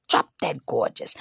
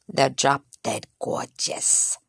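First: Said in the usual way. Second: Slow, soft, unvoiced drop dead gorgeous; breathy praise. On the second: Shown as a demonstration. Comic describing the girls, swooning hush.

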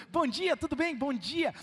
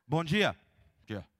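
First: Bright, smiling hello; cheerful greeting. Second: Sullen, curt hello; grumpy greeting. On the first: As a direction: greet them with a big smile. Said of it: "a pessoa entra lá sorrindo". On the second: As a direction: mutter it like you just woke up. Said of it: "Entra assim com cara amarrada". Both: Retold or imitated.

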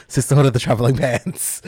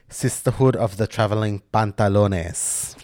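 First: Said in the usual way. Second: PANTALONES in place of Pants, mock-Spanish ending; joke title pronunciation. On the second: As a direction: play up "Pantalones" as a silly flourish. Jokey mispronounced film title, then corrected.

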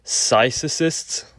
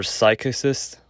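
First: "psychicist" with the middle C as S, "sy-sih-sist"; soft C pronunciation. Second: "psychicist" with a hard K, "sy-kih-sist"; hard K pronunciation. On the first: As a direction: try "psychicist" slowly with a soft C, questioning. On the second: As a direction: try "psychicist" like psychic plus -ist, questioning. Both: Shown as a demonstration. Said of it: "I don't know how to pronounce it".

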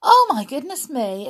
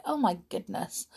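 First: Exclaiming. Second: Quiet aside. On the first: Remarks how early it is. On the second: Repeats exclamation softly. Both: Real, not acted.

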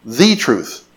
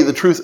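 First: "The" said as a long, stressed "thee". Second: Said in the usual way. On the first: Shown as a demonstration. Preacher repeats the verse's words, stressing "The" as "thee". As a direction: stress "The" as "thee", meaning the only one. Singles out the article.

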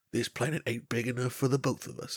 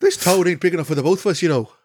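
First: Put-on Southern American accent. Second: Loud, high Irish cowboy voice; quick, hammed-up Irish brogue, pitched up; Irish accent. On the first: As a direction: play a Southern American ready for war. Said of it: "two Southern American accent continents". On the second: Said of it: "Irish cowboys. I always jumped to Irish".

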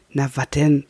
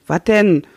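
First: Said in the usual way. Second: Higher, louder gruff wat denn; gruff grumble. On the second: A narrator's reading. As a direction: bark the repeat. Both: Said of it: "brummt Klähn".

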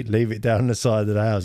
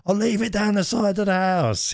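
First: Said in the usual way. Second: High, mimicked old man calling back; shouting old boy. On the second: Delivery man confirming where the parcel goes, mock old-boy shout. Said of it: "He's shouting like, like he's an old boy".

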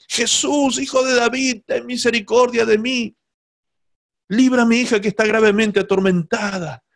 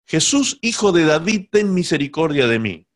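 First: Imitated crying out. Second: Mock cry. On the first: La mujer clama tras Jesús por su hija, súplica aguda a medio grito. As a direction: call after him in a raised, begging voice. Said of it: "venía a los gritos". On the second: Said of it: "venía detrás de Jesús a los gritos".

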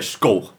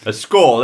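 First: "skull" for score, with a dark Cockney L; London slang "skull", vowel rounded before the L; Cockney pronunciation. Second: Said in the usual way. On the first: Shown as a demonstration. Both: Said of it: "They all say skull".

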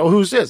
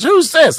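First: Said in the usual way. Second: Much higher, louder Stooges-style echo; mocking Jay Leno. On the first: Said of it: "the same thing again". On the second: Leno parrots the question back, high mock echo. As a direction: bounce it back like a Three Stooges bit. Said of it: "the same thing again, Three Stooges".

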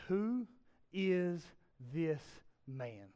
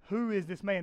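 First: Each word set apart by pauses, fading softer; slow, spaced-out question. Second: Said in the usual way. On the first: Retold or imitated. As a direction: let awe hang between the words. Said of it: "They say". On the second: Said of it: "The disciples ask".

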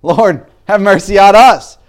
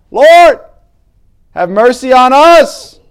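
First: High, loud pleading call; crying out for mercy. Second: Higher, even louder desperate cry. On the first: Blind men calling out to Jesus, loud high plea. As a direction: beg loudly for mercy, voice lifted. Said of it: "these two blind men cry out". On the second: Blind men shouting over the crowd, louder higher cry. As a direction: push the plea harder over the crowd. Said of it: "And these blind men got louder". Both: Retold or imitated.

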